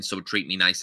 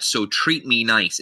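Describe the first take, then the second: First: "so treat me nice" tacked on lightly, falling away; understated, unweighted "so treat me nice"; little addition. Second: "so treat me nice" slow and weighted; slow, emphatic "so treat me nice"; the end of the point. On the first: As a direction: toss off "so treat me nice" like an afterthought. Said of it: "is just a little addition to it". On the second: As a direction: land "treat me nice" firmly as the conclusion. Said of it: "is the end of your point". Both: Shown as a demonstration.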